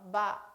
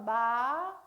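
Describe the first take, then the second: First: The pitch is low, short and abruptly cut. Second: The pitch rises steadily throughout the syllable. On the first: "짧고 또 굵게 끊어서 발음" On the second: "마 올려주고요"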